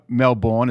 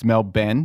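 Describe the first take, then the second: First: It is said the American way. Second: It is said the Australian way, ending in 'ben'.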